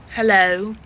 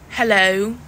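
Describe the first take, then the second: Both takes have the same delivery.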